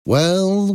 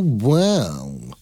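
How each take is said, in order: First: Exclaimed. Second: Second well dropped into a gloating tone; mock-pleased villain savoring the moment; sly drawn-out villain's well. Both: A narrator's reading. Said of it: "he exclaimed".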